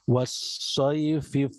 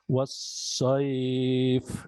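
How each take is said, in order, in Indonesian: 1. Diftongnya pendek, langsung disambung ke kata berikutnya. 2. Diftongnya dibaca panjang saat berhenti. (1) "kalau seandainya kita lanjutkan" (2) "ketika berhenti maka dibaca panjang"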